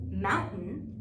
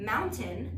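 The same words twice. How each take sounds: First: The middle T sound is dropped. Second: The middle T sound is clearly pronounced.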